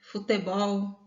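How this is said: The unstressed vowels keep an 'e' sound.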